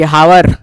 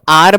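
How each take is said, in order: First: The word begins with an audible h sound. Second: The word begins directly with a vowel sound. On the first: The speaker calls it wrong. "हावर नहीं पढ़ते हैं" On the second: The speaker calls it right. "पहले तो इसको आर पढ़ना है, एच silent होता है"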